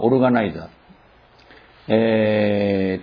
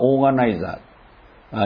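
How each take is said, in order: First: It begins with 'o-ru' then 'ga'. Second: It begins with a long 'oo' then 'ga'. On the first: This is the Japanese-style reading. "日本読みでは" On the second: This is the English-style reading. "英語読みでは"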